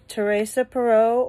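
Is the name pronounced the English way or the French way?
English. The name is said with English pronunciation.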